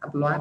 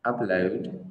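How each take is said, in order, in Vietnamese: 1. Trọng âm rơi vào âm tiết thứ hai. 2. Trọng âm rơi vào âm tiết thứ nhất. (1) "mình không đọc là upload, download, nghe nó không hay" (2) "trọng âm rơi vào âm tiết đầu tiên"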